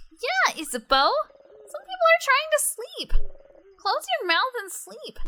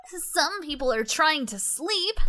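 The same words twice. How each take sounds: First: Very high, loud mocking parrot; squeaky mock echo. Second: Slow, higher grumpy reprimand; stern Odile. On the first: A teasing echo of Odile's scolding, squeaky and high. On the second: Acted. Odile scolds the noisy party, slow and stern. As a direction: scold the noisy ones, dragging it out.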